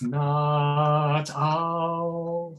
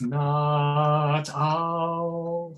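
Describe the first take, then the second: First: The t, catch and vowel blend together. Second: The t, catch and vowel blend together.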